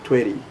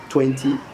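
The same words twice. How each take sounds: First: It is said in an American English accent. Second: It is said in a British English accent. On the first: "if you are Ameri- you speak American English, you say twenty" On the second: "if you are British English"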